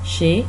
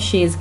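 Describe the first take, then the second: First: The word ends without any z sound. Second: The word ends with an audible z sound. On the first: The speaker calls it right. "इसका जेड silent है" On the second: The speaker calls it wrong. "शेज की तरह नहीं पढ़ना है इसको"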